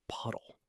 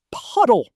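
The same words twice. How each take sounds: First: Hushed, holding back the reveal. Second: Shouted. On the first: Kid hushing before revealing the puddle. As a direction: softly set up the joke. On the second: Kid shouting Puddle! to his brother in disbelief. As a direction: burst out loud on Puddle!. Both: Acted. Story build-up, then reveal.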